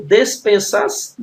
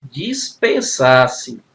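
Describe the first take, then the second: First: "dispensasse" said with des- at the start; first vowel of "dispensasse" turned to e; misspelt des- beginning. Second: "Dispensasse" very slowly, opening on dis-; slow, syllable-by-syllable "Dispensasse", dis- not des-; corrected dis- beginning. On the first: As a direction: say "dispensasse" as "despensasse", with e in the first syllable. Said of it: "não, né?". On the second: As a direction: stretch out "Dispensasse" with an i in the first syllable. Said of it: "aqui é o D e S". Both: Shown as a demonstration.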